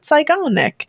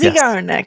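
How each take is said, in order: First: The name is pronounced the German way. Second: The name is pronounced without German style. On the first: The speaker calls it wrong. "I just approached it from a German mindset" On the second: The speaker calls it right. "that's how you apparently say it"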